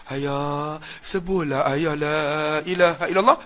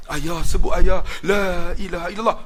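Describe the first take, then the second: First: Sorrowful plea. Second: Said in the usual way. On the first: Retold or imitated. Son whispering the creed to his father, sorrowful. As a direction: coax him tenderly with sorrow. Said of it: "dia buat nada sayu".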